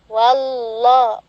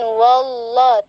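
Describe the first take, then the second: First: The opening 'wa' sounds thin and light. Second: The opening 'wa' sounds thick and heavy. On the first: The speaker calls it right. "wa tipiskan" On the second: The speaker calls it wrong. "Jangan wallah"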